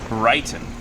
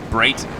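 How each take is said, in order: First: The first vowel sounds like 'eye'. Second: The first vowel sounds like 'ay'. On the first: The speaker calls it wrong. "I pronounced it Brighton" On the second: The speaker calls it right. "It's Brayton"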